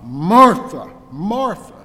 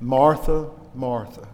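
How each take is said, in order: First: It is said in a harsh, rebuking tone. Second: It is said in a tender, gentle tone.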